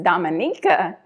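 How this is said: The name is said with a Spanish pronunciation. "the Spanish pronunciation is"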